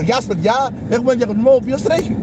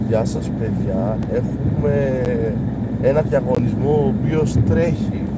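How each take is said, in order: First: The greeting is spoken quickly and briskly. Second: The greeting is spoken slowly and flatly. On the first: The intro sounds lively. The speaker calls it right. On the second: The intro sounds dull. The speaker calls it wrong.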